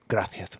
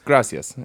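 First: The middle consonant is a lisped th sound. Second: The middle consonant is a plain s sound. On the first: This is how it is said in Spain. "And in Spain, it's gracias" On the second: This is how it is said in Mexico. "in Mexico, it's gracias"

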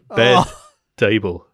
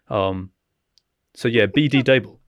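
First: The name starts with the single syllable 'bed'. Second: The name starts with the letters 'bee dee'. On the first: The speaker calls it wrong. "I've mispronounced that" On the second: The speaker calls it right. "It's B D Dable"

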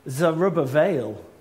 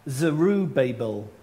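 First: The name is said with its Hebrew pronunciation. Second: The name is said as English spelling suggests. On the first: The speaker calls it right. "because it's actually Zerubbabel" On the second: The speaker calls it wrong. "whose name looks like Zerubbabel"

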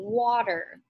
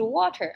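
First: The middle t is a soft, d-like tap. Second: The middle t is a clear t sound.

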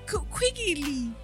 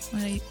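First: The word is said clearly, every sound pronounced. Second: The word is slurred, with sounds dropped. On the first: The speaker calls it right. "That's good" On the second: The speaker calls it wrong. "Why do you not enunciate your words?"

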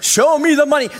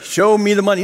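First: It is said with more passion and force. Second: It is said mildly, without much force.

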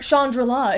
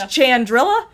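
First: The name sounds fancy and elegant. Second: The name sounds plain and Midwestern. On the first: The speaker calls it right. "is actually much fancier" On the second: The speaker calls it wrong. "I pronounce it the most cheesy way ever"

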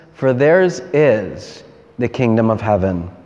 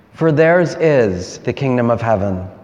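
No difference in how they are said.

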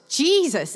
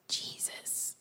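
First: It is shouted loudly. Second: It is said quietly, without shouting.

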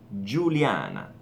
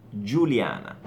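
The two takes are said the same way.

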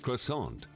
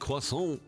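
First: The word is pronounced with an English sound. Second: The word is pronounced with a French sound. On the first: "instead of croissant" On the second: "if you say croissant"

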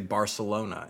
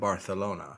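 First: The c is said with an s sound. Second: The c is said with a th sound. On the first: This is how it is said in Mexican Spanish. The speaker calls it wrong. "I know I'm speaking incorrectly by their standards when I say Barcelona" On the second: This is how it is said in Spain. The speaker calls it right. "instead of Barcelona"

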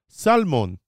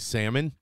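First: The L is pronounced, Israeli style. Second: The L is silent, American style.

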